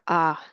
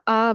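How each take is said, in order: First: The syllable is said on a low tone. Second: The syllable is said on a high tone. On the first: "are a lower tone" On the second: "are said with a higher tone"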